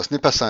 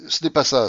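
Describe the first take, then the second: First: Said in the usual way. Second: Interrupting. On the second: A narrator's reading. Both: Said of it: "interrompit de Grier".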